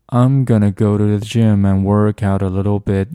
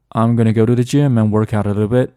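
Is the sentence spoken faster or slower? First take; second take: slower; faster. First: The sentence is spoken at a moderate, slower speed. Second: The sentence is spoken at normal, faster speed. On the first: "中暑" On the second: "正常速度"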